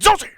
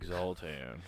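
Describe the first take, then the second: First: It is said forcefully, with authority. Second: It is said weakly, without authority.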